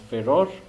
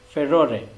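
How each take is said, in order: First: It is said the American way. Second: It is said the British way.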